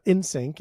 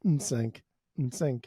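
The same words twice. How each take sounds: First: "In sync" with a clear vowel before the n; full vowel first. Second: Sung, "N sync" with no vowel before the n; bare hummed N. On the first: Showing cohost what the name is not, full vowel. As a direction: voice a whole syllable "In". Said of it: "It's not, it's not". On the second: Sung, showing cohost what the name is, bare N. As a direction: start "N sync" straight on a short hum. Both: Shown as a demonstration.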